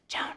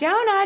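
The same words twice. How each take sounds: First: The name is whispered softly. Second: The name is called out in a loud voice. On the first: This is unexpected and catches attention. "I've actually resorted to whispering" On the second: This is the usual nagging call. "they hear this all the time"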